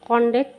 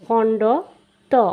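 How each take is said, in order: First: The name runs together as one merged word. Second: The name is said as two separate parts. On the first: The speaker calls it wrong. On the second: The speaker calls it right.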